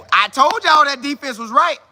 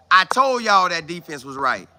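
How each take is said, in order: First: Higher and louder "I told y'all"; excited boast. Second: Said in the usual way. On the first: Real, not acted. Host boasting to his chat about the defense, excited. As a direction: crow about being right.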